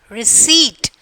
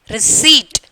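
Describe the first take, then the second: Both takes have the same delivery.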